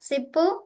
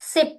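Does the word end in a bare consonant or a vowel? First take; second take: vowel; consonant. First: The word ends with an added vowel sound. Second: The word ends on a bare consonant. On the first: The speaker calls it wrong. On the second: The speaker calls it right.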